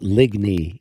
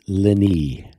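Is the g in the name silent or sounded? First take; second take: sounded; silent. First: The g in the name is pronounced. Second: The g in the name is silent. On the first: The speaker calls it wrong. "it's not Ligny" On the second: The speaker calls it right. "The G is silent"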